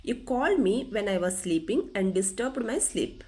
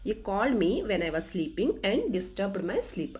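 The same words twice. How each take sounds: The two takes are said the same way.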